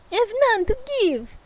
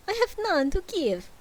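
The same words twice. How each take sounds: First: High, fast Russian ghost; Russian accent. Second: High Transylvanian ghost voice; a vampire-ish ghost by accident; Dracula accent. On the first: Ghost answers Scrooge in a high, fast Russian accent. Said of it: "That's Russian, idiot". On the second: Ghost answers Scrooge in a high Dracula accent. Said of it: "Apparently I'm Dracula now". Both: Acted.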